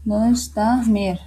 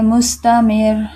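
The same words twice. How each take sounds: First: मुस्तामिर said slowly with a thin रॉ; मुस्तामिर said slowly and softly, thin रॉ; slow demo. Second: Said in the usual way. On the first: Shown as a demonstration. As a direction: drag out मुस्तामिर so the रॉ stays light. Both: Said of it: "इसके example में देख लें".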